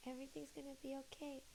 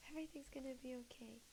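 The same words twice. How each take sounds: First: Soft, fast self-reassurance; soft quick murmur to herself; quiet reassurance. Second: Fast whispered self-reassurance; hushed quick reassurance to herself. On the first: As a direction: murmur it to calm yourself. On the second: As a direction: whisper it quickly to calm yourself. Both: Real, not acted. Calming herself.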